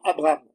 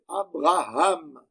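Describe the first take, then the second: First: The name is said without the 'ha' syllable. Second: The name is said with the 'ha' syllable. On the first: The speaker calls it wrong. "ça se dit souvent Abraham. Non" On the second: The speaker calls it right. "c'est Abraham. Il faut toujours ajouter le He"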